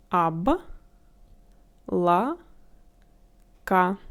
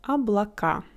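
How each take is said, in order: First: Облака as Об, ла, ка with long pauses; syllable by syllable. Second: Said in the usual way. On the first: Shown as a demonstration. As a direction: close the first syllable on б, then ла, then ка. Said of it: "add first consonant to the previous syllable". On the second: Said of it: "For example, a word".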